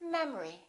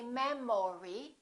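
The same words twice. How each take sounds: First: The stress is on the first syllable. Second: The stress is not on the first syllable. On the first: The speaker calls it right. "The first syllable is stressed" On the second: The speaker calls it wrong. "We don't say memory"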